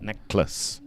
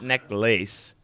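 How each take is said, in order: First: The second syllable is short and does not sound like lace. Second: The second syllable sounds like the full word lace. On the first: The speaker calls it right. "but it's pronounced necklace" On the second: The speaker calls it wrong. "it's not necklace, even though it's kind of like a lace around your neck"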